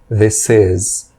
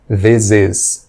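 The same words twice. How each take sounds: First: 'This' ends in an s sound, linked to 'is'. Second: 'This' ends in a z sound, linked to 'is'. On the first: The speaker calls it right. "O correto é som de S, conectando com is" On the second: The speaker calls it wrong. "e não"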